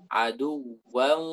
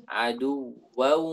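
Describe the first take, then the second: Both takes have the same delivery.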